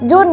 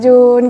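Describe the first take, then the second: First: It is said in a harsh, angry-sounding tone. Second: It is said in a soft, gentle tone.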